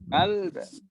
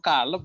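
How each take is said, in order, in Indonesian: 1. L dan b disambung tanpa vokal. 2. Ada vokal yang disisipkan di antara l dan b. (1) "bukan kalb" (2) "Eh kok kalab bukan kalb gitu"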